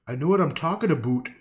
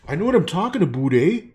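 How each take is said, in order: First: Insistent. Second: Loud, fast hammed-up Canadian "aboot"; exaggerated Canadian accent. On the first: Real, not acted. Repeats louder. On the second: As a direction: belt it out like a hoser Canadian. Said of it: "I'm Canadian, eh?".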